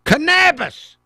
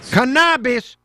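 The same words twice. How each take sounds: First: Loud, high mock accent on Cannabis, with a flat a; hammed-up mimicry of the guest's accent; mocking foreign accent. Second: Loud mock echo of Cannabis, as the guest says it; hammed-up mimicry of the guest's accent; mocking foreign accent. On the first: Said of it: "Yes, canna". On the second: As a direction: shout Cannabis back in her accent.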